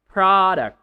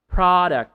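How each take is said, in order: The two takes are said the same way.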